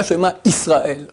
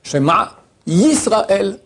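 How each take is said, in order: First: "Israël" starting on a bare i, no y; Yud dropped. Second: "Yisraël" drawn out slowly, opening on a clear y; Yud sounded. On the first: Rabbi showing the wrong reading, Yud dropped. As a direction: say "Israël" as if the Yud were an Aleph. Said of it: "Pas Shema Israël". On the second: Rabbi correcting pupils' reading, Yud clearly sounded. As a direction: say "Yisraël" slowly with a y glide before the i. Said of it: "Il y a un Yud et t'en fais un Aleph". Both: Shown as a demonstration.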